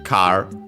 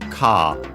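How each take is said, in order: First: The final R sound is pronounced. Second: It has no R and a long vowel.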